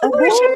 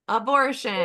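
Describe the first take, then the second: First: It is said with delighted excitement. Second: It is said in a plain, neutral way.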